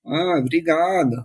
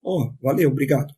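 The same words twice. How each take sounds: First: Mock thanks through gritted teeth; slow, reluctant "obrigado", imitated; grudging thanks. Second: Easy, sincere thank-you; acted-out honest gratitude, casually said; genuine thanks. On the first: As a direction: squeeze out a forced thank-you. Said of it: "o obrigado saía meio entre os dentes". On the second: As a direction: thank them simply and mean it. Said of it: "Era, era genuíno".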